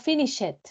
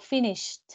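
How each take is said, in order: First: The ending is an extra syllable. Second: The ending is a plain t sound. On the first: The speaker calls it wrong. "No digo finish it. Mm, mm, no suena bien" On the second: The speaker calls it right. "Digo finished. ... inmediatamente pronuncio una T"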